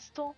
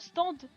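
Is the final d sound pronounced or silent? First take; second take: silent; pronounced. First: The final d sound is left silent. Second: The final d sound is clearly pronounced. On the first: This is how the speaker's own group says it. "Nous on dit un stand" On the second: This is how people from France say it. "vous dites le D à la fin"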